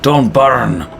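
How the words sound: It is said in a Scottish accent.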